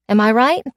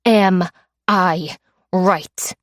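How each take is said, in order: First: Said in the usual way. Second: Am I right said very slowly, each word weighted, falling; slow menacing repeat. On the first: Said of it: "I said". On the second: Acted. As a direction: spell it out word by word as a threat. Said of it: "I said, 'Am I right?'".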